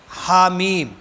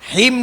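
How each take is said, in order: First: Each letter name is said separately: ha, then mim. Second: The letters are merged into one short syllable, him. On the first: The speaker calls it right. "हर हर्फ को अलग अलग पढ़ा जाएगा" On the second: The speaker calls it wrong. "हिम नहीं पढ़ेंगे"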